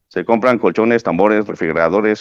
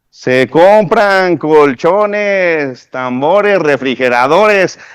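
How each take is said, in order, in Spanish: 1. Se entrega de forma plana, sin intención expresiva. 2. Se entrega con intención viva y expresiva. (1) "No es lo mismo decir eso a" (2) "Ahí hay una intención"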